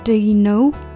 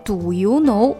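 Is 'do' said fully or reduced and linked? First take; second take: reduced; fully. First: The words are reduced and run together. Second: Each word is said fully and separately. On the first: The speaker calls it right. "它是do you know do you know do you" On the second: The speaker calls it wrong. "不能do you know"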